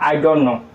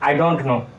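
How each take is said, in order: Both takes have the same delivery.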